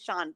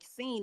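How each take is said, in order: First: The name rhymes with the word lawn. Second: The name rhymes with the word lean. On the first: The speaker calls it right. "Oh, it's actually Sean" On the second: The speaker calls it wrong. "say scene like like Lane, L E A N. That's how I thought you pronounced it forever"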